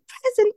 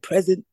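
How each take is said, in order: First: It is said in a higher, lighter voice. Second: It is said in a deep, raspy voice. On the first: The other classmates answered this way. "everyone would be like" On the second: The speaker herself answered this way. "I'd often be the one in the class with a deeper voice"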